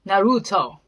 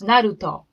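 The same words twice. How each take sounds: First: It is said with an American pronunciation, English R. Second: It is said with a Japanese pronunciation, no English R. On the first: "that's why Americans call it Naruto" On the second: "how Japanese actually pronounce"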